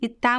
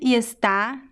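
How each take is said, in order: First: The verb is shortened to 'tá'. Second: The verb is said in full as 'está'. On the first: It sounds like natural speech. The speaker calls it right. "when we are speaking naturally, we always say tá" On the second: It sounds like reading aloud. The speaker calls it wrong. "I said está"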